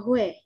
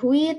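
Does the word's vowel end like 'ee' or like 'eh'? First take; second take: eh; ee. First: The vowel ends with an 'eh' sound. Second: The vowel ends with an 'ee' sound. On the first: The speaker calls it right. "tapi bacanya hue" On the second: The speaker calls it wrong. "Ini bukan hui"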